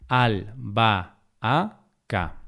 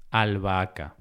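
First: Albahaca broken slowly into al, ba, a, ca; syllable by syllable. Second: Said in the usual way. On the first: Shown as a demonstration. Teacher dividing albahaca to show the hiato, syllable by syllable. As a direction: say "albahaca" as four separate syllables.

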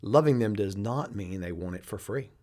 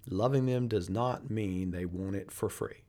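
First: Said in the usual way. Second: Slower, weighty repeat; slow and deliberate. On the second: Shown as a demonstration. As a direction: say it again, slowly, letting it sink in. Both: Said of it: "I want you to pay attention".

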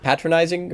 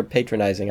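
First: "patronizing" with a short a, as in pat; short-a pronunciation. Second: "patronizing" with a long a, as in pay; long-a pronunciation. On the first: Asking co-host which is correct, "patronizing" said PAT-ronizing. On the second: Offering co-host the alternative, "patronizing" said PAY-tronizing. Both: Shown as a demonstration. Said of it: "Which is the correct pronunciation?".

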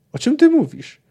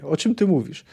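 First: Pitched much higher in disbelief, stress on ty; incredulous question. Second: Said in the usual way. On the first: Acted. Geralt stunned by Cahir's confession, much higher disbelieving question. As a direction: ask it as if you can't believe your ears.

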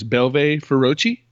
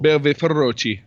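First: Feroci with a rolled, trilled r, slow and careful. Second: Feroci with the r rolled, Italian style. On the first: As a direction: Feroci said slowly, r rolled hard. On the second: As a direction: Belve Feroci, r trilled on Feroci. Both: Shown as a demonstration. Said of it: "you like how I rolled the R's there?".

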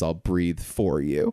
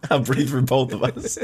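First: Low slow earnest vow; lightly voiced hero, low and slow; slow low Costner line. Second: Mock hero line. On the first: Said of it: "Costner goes". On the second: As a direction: ham up the noble hero. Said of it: "Yeah, you're just".

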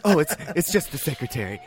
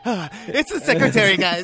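First: Understated casual excuse; lightly voiced husband, covering. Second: High, laughing fake cheer; mock laughing excuse. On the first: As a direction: toss it off like nothing's wrong. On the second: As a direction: laugh it off too brightly. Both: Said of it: "And he's like".

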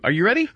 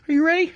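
First: Said in the usual way. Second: "ready" pitched much higher, rising; rising, eager "ready"; hyped-up repeat. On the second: Shown as a demonstration. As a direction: ask again like a hype man.

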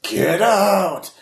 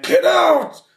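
First: High ghostly cry; scream shout. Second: Very high, loud ghost shriek; ghostly shout. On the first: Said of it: "scream shouts in your head". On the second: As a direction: shriek it like an angry spirit. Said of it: "you just hear it go". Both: Acted.

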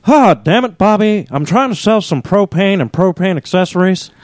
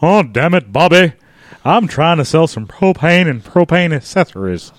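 First: Higher-pitched exasperated cartoon dad; Hank Hill. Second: Lightly voiced exasperated cartoon dad; Hank Hill. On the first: Dad scolding Bobby while selling propane, high exasperated voice. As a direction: put on a fed-up cartoon dad impression. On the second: Dad scolding Bobby while selling propane, restrained exasperated voice. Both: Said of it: "Dueling Hank Hills".

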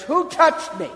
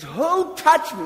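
First: Loud, high demand to the crowd; Jesus calling out. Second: Loud, high, slower demand to the crowd; Jesus calling out. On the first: Jesus turning to the packed crowd, loud high call. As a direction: call out over the crowd, searching. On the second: Jesus asking the crowd once more, loud slow call. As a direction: draw it out, loud and searching. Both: Acted.

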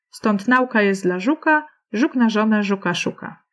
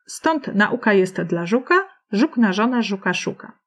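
First: Nauka as NAU-ka, first syllable stressed with au run together; NAUka, breaking the verse rhythm; nauka stressed like aula. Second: Nauka in three syllables, na-U-ka, in a verse rhythm; naUka, rhyming with żuka and szuka; stress on U of nauka. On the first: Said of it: "zrobimy to tak jak aula". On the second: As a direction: recite the couplet with nauka stressed on u. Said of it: "zaakcentowałam tak jak na u". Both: Shown as a demonstration.

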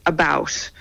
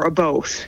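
First: "about" with a raised Canadian diphthong. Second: "a boat" for about, with an oh vowel; Canadian "a boat". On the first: Canadian showing how we say it, raised vowel in "about". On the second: Canadian showing how we say it, oh-vowel "a boat". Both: Shown as a demonstration. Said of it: "We say".

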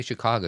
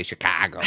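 First: Said in the usual way. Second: Put-on Chicago said with a Chicago-accented broad "ah" vowel; imitated Chicago accent. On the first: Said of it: "every time you say Chicago, you say Chicago". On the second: Host teasing co-host about how they say Chicago, imitated Chicago accent. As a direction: mimic a Chicagoan saying "Chicago". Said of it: "are obviously Chicago accents".

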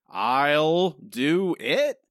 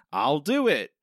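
First: "I'll do it" stretched out very slowly, mocking Marge; mocking Marge's take. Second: Said in the usual way. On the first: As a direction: drag out "I'll do it" like a dull retake. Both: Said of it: "forty-five seconds of Marge going".

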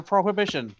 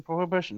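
First: Prohibition said clearly, correcting probation; pro-hi-BI-tion with firm fall; corrected word prohibition. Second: Prohibition repeated softer, falling; corrected word prohibition. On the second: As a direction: say prohibition again calmly. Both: Shown as a demonstration. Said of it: "Not probation, prohibition".

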